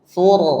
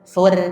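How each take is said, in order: First: The r is thick and heavy, with a dark vowel. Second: The r is thin and light, with a bright vowel. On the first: The speaker calls it right. "thur dibaca dengan tafkhim, ya, mengangkat suara ke langit-langit" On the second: The speaker calls it wrong. "tidak dibaca dengan terkik"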